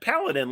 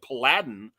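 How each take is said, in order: First: The name is said not rhyming with Aladdin. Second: The name is said to rhyme with Aladdin. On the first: It names a knight-like hero. "paladin, like you know, uh, like a knight" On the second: Someone else said it this way. "pronouncing it Paladin like Aladdin"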